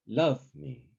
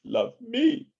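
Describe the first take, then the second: First: LOVE higher and strong, me falling away; stress on LOVE. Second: Love me with ME high and strong; stress on ME. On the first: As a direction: hit Love in Love me. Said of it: "strong accent on the first". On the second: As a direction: jump up on me in Love me. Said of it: "or the second word". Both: Shown as a demonstration.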